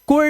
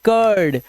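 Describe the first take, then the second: First: The vowel is a short oo sound. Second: The vowel is an uh sound. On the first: The speaker calls it wrong. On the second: The speaker calls it right.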